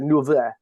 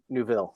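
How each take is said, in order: First: The name is said with a French accent. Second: The name is said with an American accent. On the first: "As a French person, it was probably like Neuville" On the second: "as an American, I'm going to call it Neuville"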